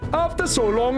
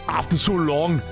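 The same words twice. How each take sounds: First: It is spoken in a Singaporean English accent. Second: It is spoken in an Austrian German accent. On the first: "Sing Singaporean?" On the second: "Alright, Arnold"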